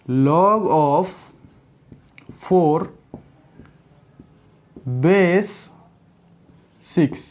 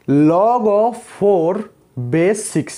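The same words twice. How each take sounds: First: "log of", pause, "four", pause, "base", pause, "six"; word by word. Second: Extremely slow and drawn out; slow demo reading. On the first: Teacher spelling out the log for students, word by word. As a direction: split "log of four base six" into separate words with long gaps. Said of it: "देखो". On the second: Teacher showing students how to read the log, very slowly. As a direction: stretch out "log of four base six". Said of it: "इसको हम कैसे करके पढ़ेंगे देखो". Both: Shown as a demonstration.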